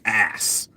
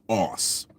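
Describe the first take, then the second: First: It is said with an American short vowel. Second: It is said with a British long vowel. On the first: The speaker calls it right. "They they say ass" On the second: The speaker calls it wrong. "in Britain we say arse"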